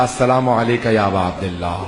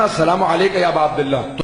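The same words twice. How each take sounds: First: Mildly trembling, awed salaam; a touch of shaking reverence; trembling greeting. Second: Said in the usual way. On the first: Retold or imitated. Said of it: "کانپتا ہوا میں نے کہا". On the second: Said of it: "جیسے میں نے کہا نا".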